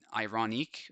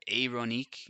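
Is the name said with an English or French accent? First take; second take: English; French. First: The name is said in an English way. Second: The name is said in a French way.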